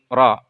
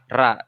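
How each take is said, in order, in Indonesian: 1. Bunyi r itu tebal dan berat. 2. Bunyi r itu tipis dan ringan. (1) "maka ra dibaca tebal" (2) "Bukan dibaca ra"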